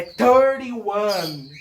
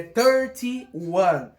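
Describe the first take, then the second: First: Thirty-one said slowly and carefully; slow demo. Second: Thirty-one again, slow and a little lower; slow repeat. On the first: (pronúncia lenta e didática) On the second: (repetição lenta e cuidadosa) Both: Shown as a demonstration. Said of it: "como é que você fala trinta e um?".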